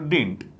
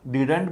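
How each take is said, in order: First: The middle d sound is dropped. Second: The middle d sound is clearly pronounced. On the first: The speaker calls it right. "Better if you से डिंट" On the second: The speaker calls it wrong. "डिडंट भी ठीक है"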